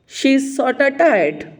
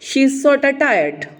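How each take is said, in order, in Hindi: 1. 'Sort of' को जोड़कर 'sorta' बोला जाता है। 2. 'Sort of' को जोड़कर 'sorta' बोला जाता है।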